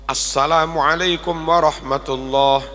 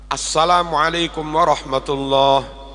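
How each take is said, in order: Both takes have the same delivery.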